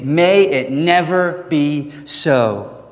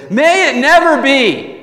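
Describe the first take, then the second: First: Slow, measured, firm delivery; forceful. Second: High, loud emphatic outcry, drawn out; emphatic yell. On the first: Preacher restating Paul's answer to the congregation, slow and forceful. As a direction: space it out word by word, firmly. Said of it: "this forceful language of saying". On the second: Preacher voicing Paul's forceful answer to sinning more, emphatic yell. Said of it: "He's, like, yelling here". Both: Acted.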